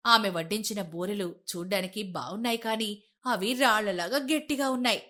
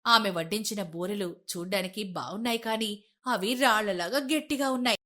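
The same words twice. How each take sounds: The two takes are said the same way.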